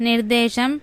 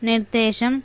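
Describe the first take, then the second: No difference in how they are said.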